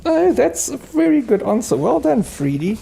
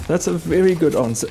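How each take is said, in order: First: "Oh, that's a very good answer" squealed up very high; gushing praise. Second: "That's a very good answer" only a little raised; gentler praise. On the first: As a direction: gush over the pup, voice soaring. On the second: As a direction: settle back toward your own voice, still fond. Praise repeated calmer. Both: Real, not acted.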